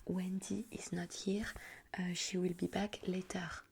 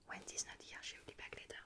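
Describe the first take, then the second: First: Slow, measured model phrase in English; phone script demo. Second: Quicker, much softer repeat in English; quick phrase run-through. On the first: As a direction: dictate the English phone line slowly. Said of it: "la phrase type à dire". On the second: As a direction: rattle off the phone line under your breath. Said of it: "tu dis la phrase et bam". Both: Shown as a demonstration.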